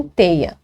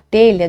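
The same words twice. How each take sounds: First: "teia" sem o som de LH; pronúncia coloquial. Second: Said in the usual way. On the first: Shown as a demonstration. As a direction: diga "teia", com I no lugar do LH. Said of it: "dizem teia". ("teia", fala popular com o LH vocalizado) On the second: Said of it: "Para telha, dizem teia".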